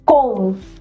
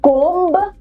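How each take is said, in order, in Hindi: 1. अंतिम B silent है। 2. अंतिम B का उच्चारण होता है। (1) "B silent है, one hundred percent silent है" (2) "कोम्ब नहीं"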